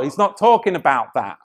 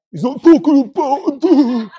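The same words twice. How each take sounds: First: Said in the usual way. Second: High-pitched mocking voice; mock objector. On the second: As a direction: parrot them in a silly high voice. Mocking an objector's reading of scripture.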